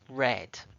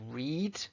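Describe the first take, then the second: First: It is pronounced as the past form. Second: It is pronounced as the base form. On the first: The action is in the past. "The present past" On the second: The action is in the present. "read is the base form"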